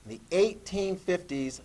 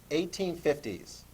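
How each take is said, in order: First: Said in the usual way. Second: Slow, each word laid out to copy; slow dictation. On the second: Shown as a demonstration. Teacher dictating a date for notes, slow. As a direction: dictate it slowly so the class writes it. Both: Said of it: "Put this down".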